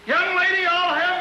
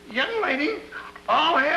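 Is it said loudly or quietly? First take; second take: loudly; quietly. First: It is said at a louder volume. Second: It is said at a quieter volume.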